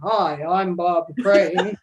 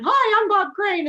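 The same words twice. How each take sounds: First: It is said in a deep, slow voice. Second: It is said in a higher, natural voice.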